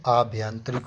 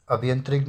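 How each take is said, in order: First: आभ्यंतरिक with long opening aa; correct pronunciation. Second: अभ्यंतरिक with short opening a; wrong pronunciation. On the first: Teacher gives class the correction, long-aa आभ्यंतरिक. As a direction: lengthen the first vowel of आभ्यंतरिक. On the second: Teacher rejects the misspelling, short-a अभ्यंतरिक. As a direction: start अभ्यंतरिक on a short vowel. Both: Shown as a demonstration. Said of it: "अभ्यंतरिक नहीं".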